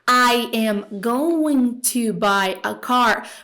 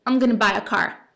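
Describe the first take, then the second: First: Each word is said fully and separately. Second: The words are contracted and run together. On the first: This is a careful textbook form, not real speech. "Bem Google Tradutor" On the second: This is how native speakers really talk. "vai juntar aí o som do going to"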